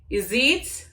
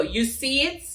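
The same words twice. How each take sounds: First: "You see it" run together in Jamaican Patois. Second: Said in the usual way. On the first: Shown as a demonstration. Vlogger explaining a patois phrase, "You see it" in patois accent. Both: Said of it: "Like, do you see that?".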